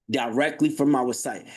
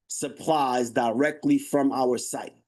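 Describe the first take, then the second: First: Said in the usual way. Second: Slow, punched "directly"; slow emphasis. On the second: Real, not acted. Host stressing the pitch to viewers, slow and punchy. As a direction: lean hard on "directly" and slow it down. Hammering the selling point.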